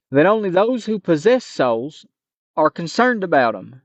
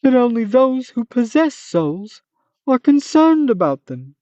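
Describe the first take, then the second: First: Said in the usual way. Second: Commit to the silly monster voice; Manticore voice. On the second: Acted. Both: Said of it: "I'm committed to the bit now".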